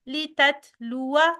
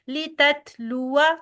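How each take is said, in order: No difference in how they are said.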